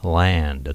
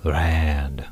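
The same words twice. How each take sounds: First: "land" very slow with a clear L; exaggerated L. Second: "land" said very slowly as "rand"; exaggerated R. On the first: Teacher exaggerating for learners, drawn-out L. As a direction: stretch "land" from its opening L. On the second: Teacher exaggerating for learners, drawn-out R. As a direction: stretch "land" with a throaty R for the L. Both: Shown as a demonstration. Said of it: "今ちょっと大げさに".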